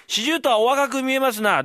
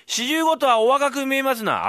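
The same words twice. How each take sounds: First: High, loud fawning praise; butter him up, a touch hammed; high flattering recital; mock flattery. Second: High, loud, slow fawning praise; slow flattering recital; slow mock flattery. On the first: Fool recites flattery line. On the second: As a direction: draw out the compliment. Fool recites flattery again slowly.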